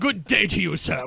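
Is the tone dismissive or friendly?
dismissive. It is said in a curt, dismissive tone. The speaker is politely telling someone to go away. "a polite way of saying, "Fuck off.""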